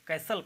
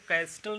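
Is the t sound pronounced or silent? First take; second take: silent; pronounced. First: The t sound is left out entirely. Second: The t sound is pronounced in the middle. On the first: The speaker calls it right. "कैसल पढ़ेंगे" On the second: The speaker calls it wrong. "इसको कैस्टल नहीं कहेंगे"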